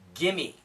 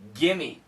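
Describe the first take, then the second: First: The v sound is dropped, said fast. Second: The same.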